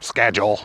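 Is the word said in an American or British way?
American. The word is said the American way.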